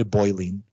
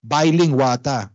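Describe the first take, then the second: First: BOILING with a rounded 'oi'; English-style BOILING, glide starting from 'o'; English diphthong. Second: BAILING as 'bye-ling', slow; slow Creole BAILING WATER with open 'ai'; Creole diphthong. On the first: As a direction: say BOILING as 'boy-ling'. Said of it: "en lugar de boiling". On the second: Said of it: "pasan a ser ai". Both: Shown as a demonstration.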